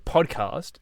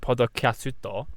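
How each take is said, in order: First: It is said with plain English sounds. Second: It is said with extra vowels between consonants. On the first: Japanese listeners do not understand it. The speaker calls it wrong. "if you say podcast, they don't understand" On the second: Japanese listeners understand it. The speaker calls it right. "if I went podokatsuto, they'd be like, ah, that"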